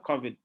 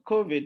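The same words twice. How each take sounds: First: "covid" with a short open "kaw" vowel, KAW-vid; the African "covid", KAW-vid; African pronunciation. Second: "covid" with a long "koh" vowel, KOH-vid; the English "covid", KOH-vid; British pronunciation. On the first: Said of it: "You can say it only in Africa". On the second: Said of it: "Please don't go and say covid". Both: Shown as a demonstration.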